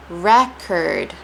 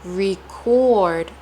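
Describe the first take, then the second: First: Record said REK-erd; noun pronunciation. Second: Record drawn out as ree-CORD; verb pronunciation. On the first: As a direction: say record with short first vowel, REK-erd. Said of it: "ending of the word curd". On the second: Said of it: "placing a lot of stress on re". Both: Shown as a demonstration.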